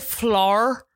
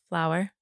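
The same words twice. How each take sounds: First: It is said in a Northern Irish accent. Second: It is said in an American accent. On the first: "You also say flour" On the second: "Instead of flour"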